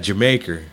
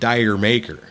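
First: It sounds like the word Jamaica. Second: It sounds like the words dire maker. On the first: The speaker calls it right. "Because that's, yeah, Jamaica" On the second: The speaker calls it wrong. "I've always pronounced it Dire Maker"

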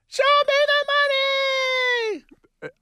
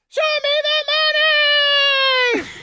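First: It is said at a normal volume. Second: It is said louder, with more force.

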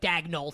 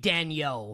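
First: The name is said with an English pronunciation. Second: The name is said with a French pronunciation. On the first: The speaker calls it wrong. "I don't like this, like, Dagnall thing" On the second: The speaker calls it right. "it should be a French pronunciation"

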